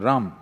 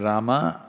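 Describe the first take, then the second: First: The final vowel is dropped, North Indian style. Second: The final vowel is pronounced.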